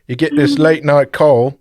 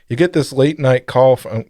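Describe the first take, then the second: First: It is said in a put-on British-sounding accent. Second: It is said in the speaker's own plain accent.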